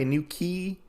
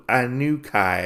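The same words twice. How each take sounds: First: Inuki said as "ə-NU-kee", ending on a plain ee; unsure name. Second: Inukai said as "ə-NU-kai-a", ending on a long ai glide; corrected name. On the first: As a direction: say Inuki with a closing ee, a tentative guess. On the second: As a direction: settle on Inukai with the ai diphthong, falling. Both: Retold or imitated. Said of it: "I think his name is".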